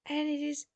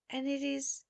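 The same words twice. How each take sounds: The two takes are said the same way.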